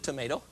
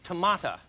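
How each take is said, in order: First: The word ends with an 'oh' sound. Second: The word ends with an 'uh' sound.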